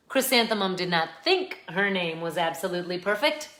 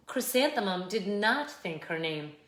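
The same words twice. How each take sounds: First: "think" lifted and emphasized, tune left rising; stress on think. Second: Said in the usual way. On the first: A narrator's reading. Narrator setting up that Chrysanthemum knew it, "think" stressed. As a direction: lean on "think" as if a stronger word will follow.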